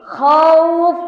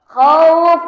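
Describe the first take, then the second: Both takes have the same delivery.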